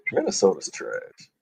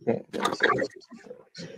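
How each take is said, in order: First: Said in the usual way. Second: Breathy whispered aside. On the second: Shown as a demonstration. Cohost repeats the dig, now whispered. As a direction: whisper it like a secret jab. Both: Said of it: "repeated as a whisper".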